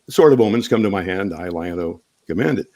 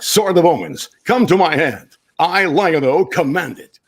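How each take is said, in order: First: It is said in a casual conversational voice. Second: It is said in a dramatic heroic voice.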